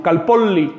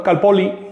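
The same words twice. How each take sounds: First: Calpolli with the LL stretched long. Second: Calpoli with a quick single L; short L. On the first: Teacher modelling the correct long LL of calpolli. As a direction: hold the double L in calpolli. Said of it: "Hay que estirar esa L". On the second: Teacher showing the wrong short L of calpoli. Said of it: "no, sino calpolli". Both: Shown as a demonstration.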